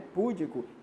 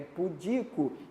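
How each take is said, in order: First: The stress is on the first syllable. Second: The stress is on the second syllable. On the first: The speaker calls it wrong. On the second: The speaker calls it right.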